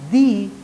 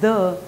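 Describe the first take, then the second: First: It is said with a long 'ee' vowel. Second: It is said with a short 'uh' vowel. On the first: "before a noun that is starts with a vowel sound" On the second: "before a noun that begins with a consonant sound"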